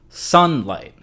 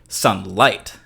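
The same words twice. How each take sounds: First: The stress is on the first syllable. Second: The stress is on the second syllable. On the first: The speaker calls it right. "the stress or the accent on this word falls on the first syllable" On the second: The speaker calls it wrong. "with the stress on the second syllable"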